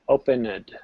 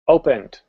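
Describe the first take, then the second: First: The ending adds an extra id syllable. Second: The ending is a soft, quiet t sound. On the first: "let me try that again with the id sound" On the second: "I used the T sound, but I, I softened it"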